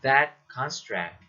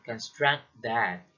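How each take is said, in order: First: "that construct" slow, with CON stressed; "that CON-struct", said as a noun phrase. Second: "construct that" as con-STRUCT that; weak con, strong STRUCT in "construct that"; verb stress. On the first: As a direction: stress the first syllable of "construct" in "that construct". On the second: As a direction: stress the second syllable of "construct" in "construct that". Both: Shown as a demonstration. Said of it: "the difference between the phrases".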